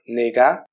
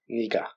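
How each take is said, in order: First: The first vowel sounds like 'e'. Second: The first vowel sounds like 'i'. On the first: This is the form built from the parts. "ça devient nega" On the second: This is how it is usually said in speech. "généralement à l'oral on le prononce niga"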